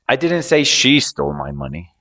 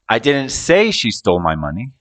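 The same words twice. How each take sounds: First: The word "she" is stressed. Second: The word "say" is stressed. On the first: Someone other than her took it. "I was talking about someone else, not her" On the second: It was implied or thought, not said. "I might have implied it or thought it, but didn't say it"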